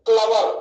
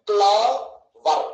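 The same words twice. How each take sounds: First: Said in the usual way. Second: "క్లవర్" slowly in two beats, cle, ver; split into syllables. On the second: Shown as a demonstration. Teacher showing two syllables, "క్లవర్" split apart slowly. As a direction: pause inside "క్లవర్" after a stretched cle. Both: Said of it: "రెండే".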